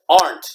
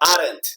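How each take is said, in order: First: It is said as one syllable, E silent. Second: It is said with an extra E syllable. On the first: The speaker calls it right. "it's pronounced aren't" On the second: The speaker calls it wrong. "not aren't"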